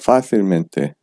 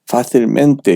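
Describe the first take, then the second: First: The main stress falls on the adjective part. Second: The main stress falls on the mente ending. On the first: The speaker calls it right. "원래 형용사에 힘을 실어줘야 됩니다" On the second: The speaker calls it wrong. "읽지 마세요"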